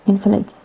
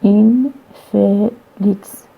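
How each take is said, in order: First: Said in the usual way. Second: "in felix" drawn out slowly, the vowel before N F lengthened; slow careful demo. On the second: Shown as a demonstration. Lecturer demonstrating the lengthened vowel to students, slow and careful. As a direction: stretch out "in felix" to show the long vowel. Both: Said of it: "before the, uh, this cluster N F".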